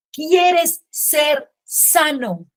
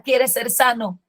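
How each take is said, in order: First: "¿Quieres ser sano?" drawn out very slowly, slightly higher; Jesus asking slowly. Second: Said in the usual way. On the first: Acted. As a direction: let the question hang, very slow. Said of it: "Jesús le dice". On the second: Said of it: "Cuando Jesús le pregunta".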